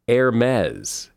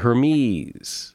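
First: The ending rhymes with 'Pez'. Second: The ending does not rhyme with 'Pez'. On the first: The speaker calls it right. "It's actually Hermès, as in Pez" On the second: The speaker calls it wrong. "A lot of people say"

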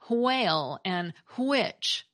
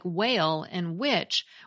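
First: The words start with a breathy h sound. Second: The words start with a plain w sound.

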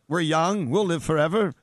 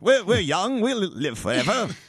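First: It is said in an ordinary speaking voice. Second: It is said in a loud, hawking sales-pitch voice.

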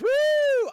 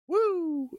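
First: It is shouted loudly with energy. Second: It is said in a quieter, subdued way.

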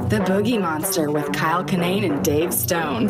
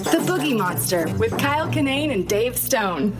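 First: It is said in a sexy, seductive way. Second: It is said in a real, sincere way.

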